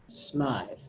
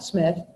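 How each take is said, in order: First: The vowel is long, as in 'writhe'. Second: The vowel is short, as in 'with'. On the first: The speaker calls it right. "they pronounce it Smythe" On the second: The speaker calls it wrong. "And not Smith"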